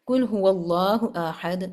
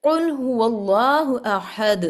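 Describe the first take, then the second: First: قل said as کل with a light ک; wrong pronunciation. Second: Slow recited قل with a heavy Arabic ق; correct Quranic recitation. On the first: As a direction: read قل هو اللہ احد with a plain k, the mistaken way. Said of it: "میں اس کو قل نہیں کہہ رہی". (غلط تلفظ، قل کو کل پڑھنا) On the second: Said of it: "میں آپ کو مثال دے رہی ہوں". (تجوید کے ساتھ قل هو اللہ احد، ق حلق سے) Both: Shown as a demonstration.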